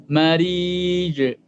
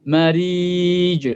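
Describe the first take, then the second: Both takes have the same delivery.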